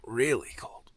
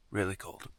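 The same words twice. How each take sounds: First: Breathy whisper in the cold. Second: Said in the usual way. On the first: Real, not acted. Repeats words, second time whispered.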